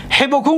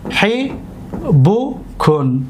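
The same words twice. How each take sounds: First: Said in the usual way. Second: حبوکن extremely slow, long pauses between syllables. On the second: Shown as a demonstration. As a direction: sound out حبوکن as hi, bu, kun. Teacher repeats word by syllables.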